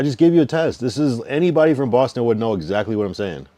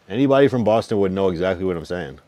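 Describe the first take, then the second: First: Insistent. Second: Said in the usual way. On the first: Real, not acted. Insisting at caller loudly.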